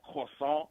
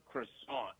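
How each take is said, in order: First: "croissant" said the French way, r from the back of the throat, nasal end; "croissant" with a throaty French r and a nasal ending. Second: "croissant" said the American way, kruh-SAHNT with an English r; "croissant" as an American says it, plain English r and vowels. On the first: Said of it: "pause, back of the throat thing you gotta do for French". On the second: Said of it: "we all know the American way". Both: Shown as a demonstration.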